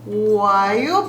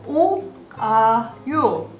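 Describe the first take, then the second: First: The vowels are merged quickly into one glide. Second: The vowels are said slowly as separate syllables. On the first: The speaker calls it right. "We want to speak faster. So we combine the vowels together" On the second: The speaker calls it wrong. "we don't want to speak very slowly"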